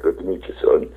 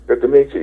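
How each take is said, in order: First: A lower, softer Good to meet you, son, in a lightly put-on star voice; imitating Charlton Heston. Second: Said in the usual way. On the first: The actor answering the fan, lower and softer mock-dignified voice. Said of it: "He's like". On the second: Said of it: "I'm like".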